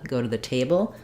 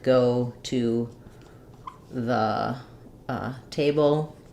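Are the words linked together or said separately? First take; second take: linked; separate. First: The words run together quickly into one phrase. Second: Each word is said separately with breaks. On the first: The speaker calls it right. "These three being very fast" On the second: The speaker calls it wrong. "reading word by word"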